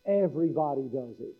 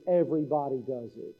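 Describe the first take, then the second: No difference in how they are said.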